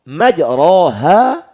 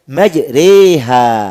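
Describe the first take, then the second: First: The vowel after the r is an open a. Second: The vowel after the r leans toward e. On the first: "lafaz yang tadinya dibaca majroh" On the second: "kemudian kita baca dengan majreha"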